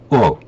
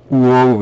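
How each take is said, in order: First: The word is said quickly as one syllable. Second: The word is drawn out slowly. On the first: The speaker calls it right. "빨리요" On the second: The speaker calls it wrong. "이렇게 천천히 발음, 늘어지게 발음한 게 아니라"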